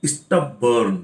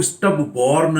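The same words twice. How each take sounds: First: स्टबबर्न with a short, neutral "bern" ending; correct pronunciation. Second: स्टबबोर्न with a full "bor" in the middle, the mistake students make; wrong pronunciation. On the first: Teacher gives students the correct stub-bern. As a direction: say स्टबबर्न as STUB-bern, weak second syllable. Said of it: "सही pronunciation है स्टबबर्न". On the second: Teacher shows students the wrong way, stub-born. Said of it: "इसको स्टबबोर्न नहीं बोलेंगे". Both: Shown as a demonstration.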